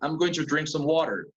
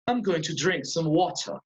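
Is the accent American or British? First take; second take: American; British. First: It is said in an American accent. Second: It is said in a British accent. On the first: "I'm American" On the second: "I'm British"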